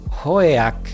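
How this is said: The name is said with English-style sounds. "in English it's oh oh ma- how did she say it?"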